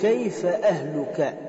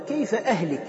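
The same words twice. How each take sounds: First: The vowel before the final syllable is 'u'. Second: The vowel before the final syllable is 'i'. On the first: It asks how the listener's family is. The speaker calls it right. "هو يريد أن يقول" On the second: It asks how the listener will die. The speaker calls it wrong. "تغيير حركة من الرفع إلى الخفض"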